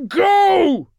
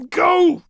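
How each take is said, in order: First: Very high, full-force roar; huge, desperate bellow. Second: High, loud, desperate plea; anguished, urgent cry; pleading shout. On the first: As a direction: roar the order with everything left. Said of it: "he roared". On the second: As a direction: beg a comrade to flee at full voice. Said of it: "he pleaded to Guilliman". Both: A narrator's reading.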